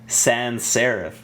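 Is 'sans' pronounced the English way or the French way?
English. The word sans has an English pronunciation. "They say sans serif"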